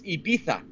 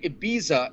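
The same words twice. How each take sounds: First: It is said with a Castilian Spanish accent. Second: It is said without a Castilian Spanish accent. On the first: The speaker calls it right. "in the Castilian dialect with the Castilian accent" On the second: The speaker calls it wrong. "I was calling it Ibiza. It's not"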